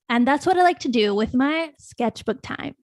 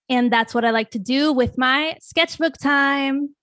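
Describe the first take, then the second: First: The voice falls at the end. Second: The voice rises at the end.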